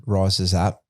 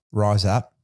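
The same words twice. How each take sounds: First: "Rises up" with the full two-syllable "rises"; "Rises up", the plain American reading; wrong take, "rises". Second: "Rise up" with one short syllable "Rise"; "Rise up", said the way the coach told you; corrected "rise". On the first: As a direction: say "Rises" clearly as rye-zez. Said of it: "Don't say rises". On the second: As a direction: clip "Rise" to a single beat, no -es ending. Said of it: "We just say rise". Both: Shown as a demonstration.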